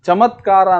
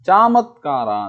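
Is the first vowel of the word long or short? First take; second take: short; long. First: The first vowel is short. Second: The first vowel is long. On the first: The speaker calls it right. "ಚಮತ್ಕಾರ ಅಂದರೆ" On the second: The speaker calls it wrong. "ಹ್ರಸ್ವಾಕ್ಷರಗಳನ್ನು ದೀರ್ಘಾಕ್ಷರಗಳನ್ನಾಗಿ ಉಚ್ಚರಿಸ್ತಾನೆ"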